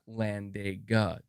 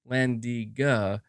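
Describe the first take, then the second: First: The middle vowel sounds like 'eh'. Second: The middle vowel sounds like 'ee'. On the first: The speaker calls it wrong. "is not Landega" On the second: The speaker calls it right. "Landiga is not Landega"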